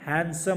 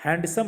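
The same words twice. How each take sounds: First: हैंडसम as "hen-sum", with a silent D; हैंडसम with the D dropped; correct handsome. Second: हैंडसम with the D sounded; हैंडसम said as "hand-sum"; wrong handsome. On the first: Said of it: "हैंडसम बोलते हैं". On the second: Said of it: "हैंडसम नहीं बोलते हैं". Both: Shown as a demonstration.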